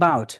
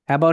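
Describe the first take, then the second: First: The first syllable is dropped. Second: The first syllable is pronounced.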